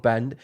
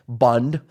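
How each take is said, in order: First: Said in the usual way. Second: "band" as "bund", mock Irish; attempted Irish accent. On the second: Shown as a demonstration. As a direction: say "band" with a rounded, Irish-style vowel. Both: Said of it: "I don't know what his accent is".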